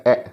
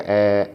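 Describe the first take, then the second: First: ए cut short; a brief, unstretched ए; short vowel. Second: ए held long; stretched vowel. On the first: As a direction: say ए quickly without stretching. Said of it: "इसको stretch नहीं किया जाता". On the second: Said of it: "थोड़ा सा stretch करके sound निकालते हैं". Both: Shown as a demonstration.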